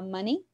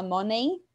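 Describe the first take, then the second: First: "money" as "MUH-nee"; correct English pronunciation. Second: "money" with an O as in "mo-nay"; wrong pronunciation. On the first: Teacher modelling English for students, "money" said as "MUH-nee". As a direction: open "uh" first, then "nee" in "money". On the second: Teacher showing students the mispronunciation, "money" said as "moh-nay". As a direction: say "money" as "MOH-nay", Portuguese-style vowels. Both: Shown as a demonstration. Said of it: "em inglês não se fala money".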